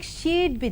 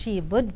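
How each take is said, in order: First: The word would is contracted to a d sound. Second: The word would is said in full.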